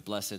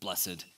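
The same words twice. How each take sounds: First: The word is said as one syllable. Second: The word is said as two syllables.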